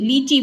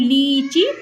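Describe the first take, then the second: First: The vowels are held only slightly long. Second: The vowels are stretched out very long. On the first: This is how the word is normally said. "लीची बोला जाता है" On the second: It is slowed down to make the vowel clear. "मैं आपको ज्यादा खींच रही हूँ"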